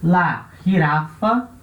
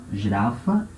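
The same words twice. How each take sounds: First: Slow, drawn-out Spanish "la girafa"; Spanish model word, GIRAFA opening on an H sound; Spanish pronunciation. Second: Said in the usual way. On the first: Shown as a demonstration. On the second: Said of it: "la girafa".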